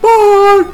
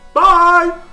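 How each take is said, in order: First: It is said at a higher pitch. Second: It is said at a lower pitch.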